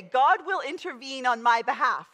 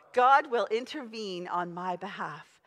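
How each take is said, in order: First: God will intervene said out loud and firm, leading the congregation; the preacher giving the church the line to say; loud declaration. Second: Said in the usual way. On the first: Shown as a demonstration. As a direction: proclaim God will intervene for them to repeat. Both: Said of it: "I want you to say".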